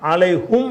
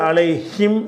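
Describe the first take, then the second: First: The last syllable is said with a u vowel. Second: The last syllable is said with an i vowel. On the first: "அலைஹும் என்றும் ஓதலாம்" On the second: "இதை வந்து அலைஹிம் என்றும் ஓதலாம்"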